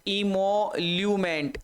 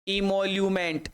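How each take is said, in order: First: इमोल्यूमेंट slowly split as i-mo, lyu-ment; slow teaching take, pausing inside इमोल्यूमेंट; syllable by syllable. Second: Said in the usual way. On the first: Shown as a demonstration. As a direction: sound out इमोल्यूमेंट in slow pieces. Teacher breaks up the new word.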